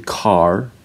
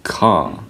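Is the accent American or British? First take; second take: American; British. First: The final R is pronounced. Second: The final R is silent. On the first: "Americans would say" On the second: "British people would say"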